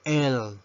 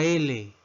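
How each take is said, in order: First: Letter L pronounced "el"; English letter L. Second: Said in the usual way. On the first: Shown as a demonstration. Teacher modelling the English alphabet, L as "el". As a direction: say L as one-syllable "el". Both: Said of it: "La letra L".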